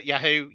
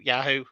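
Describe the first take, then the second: First: "Yahoo" with a short "a", as in "yak"; own accented pronunciation. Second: "Yahoo" with an open "ah": YAH-hoo; alternative pronunciation. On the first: Guest trying out own pronunciation, "Yahoo" with short "a". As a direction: say "Yahoo" as YA-hoo, first vowel like "cat". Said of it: "you say Yahoo?". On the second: Guest offering the other version, "Yahoo" said YAH-hoo. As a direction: say "Yahoo" as YAH-hoo, broad first vowel. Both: Shown as a demonstration.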